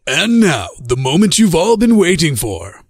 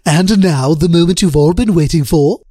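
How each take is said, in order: First: It is said in an attempted announcer voice. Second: It is said in a Stewie impression voice.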